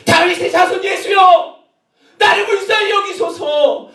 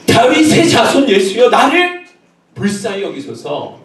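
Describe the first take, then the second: First: Very high, slow, drawn-out cry; shouted plea. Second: Raised, high plea that drops at the end; crying out. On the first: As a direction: shout desperately for mercy. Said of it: "이렇게 소리를 질렀는데". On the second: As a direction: call out for mercy, not yet at full strength. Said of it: "소리 질렀다니까요". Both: Acted.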